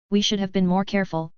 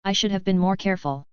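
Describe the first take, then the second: First: "We" pushed hard as a correction; stress on we. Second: Said in the usual way. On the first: A narrator's reading. Father correcting mother, weighting "We" firmly. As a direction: lean on "We", not "I". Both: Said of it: "Richard corrected".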